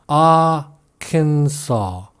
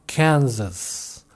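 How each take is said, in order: First: It ends with a sound like saw. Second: It ends sounding like the state name Kansas. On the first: The speaker calls it right. "뒷부분의 발음이 동사 C의 과거형 saw와 똑같죠" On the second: The speaker calls it wrong. "R에다가 미국 캔사스주 ... 합친 모양이니까 Arkansas, Arkansas라고 할 것 같지만 전혀 그렇지는 않고요"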